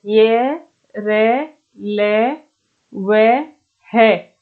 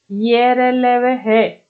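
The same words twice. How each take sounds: First: Each letter drawn out with a pause after; slow letter-by-letter recital. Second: Said in the usual way. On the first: Shown as a demonstration. Teacher dictating letters to students, slowly, one by one. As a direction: stretch out ये, र, ल, व, है one at a time.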